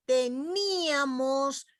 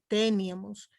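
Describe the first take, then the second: First: Teníamos despacio, te-NÍ-a-mos; hiato marcado. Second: Teníamos mal acentuado, TE-nia-mos; diptongo incorrecto. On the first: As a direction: alarga y acentúa la í de teníamos. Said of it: "se las pronuncia". (teníamos con la í fuerte, separada de la a) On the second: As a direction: carga la e de teníamos y junta nia en una sílaba. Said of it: "no digo teníamos". (teníamos sin fuerza en la í, como «téniamos») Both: Shown as a demonstration.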